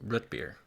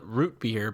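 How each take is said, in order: First: It is said in a local, folksy way. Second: It is said in the standard spelled-out way. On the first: "like a local yokel" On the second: "you got to spell it root beer"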